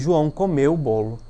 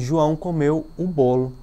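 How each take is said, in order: First: The emphasis falls on the word comeu. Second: The emphasis falls on the word bolo. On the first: It answers what João did. "falando de maneira mais forte a palavra comeu" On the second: It answers what João ate. "colocando um acento na expressão bolo"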